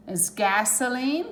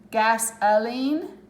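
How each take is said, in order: First: "gasoline" with a schwa O, GAS-uh-leen; correct pronunciation. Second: "Gasoline" said slowly, with the schwa O; slow model. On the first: Teacher confirming the right reading. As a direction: say "gasoline" with the O reduced. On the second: Teacher modelling the word slowly for students. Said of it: "It's a schwa O there". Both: Shown as a demonstration.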